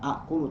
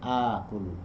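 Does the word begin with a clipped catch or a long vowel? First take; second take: clipped catch; long vowel. First: Two glottal catches collide at the start. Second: The first vowel is smoothly lengthened to two beats. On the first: The speaker calls it wrong. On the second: The speaker calls it right.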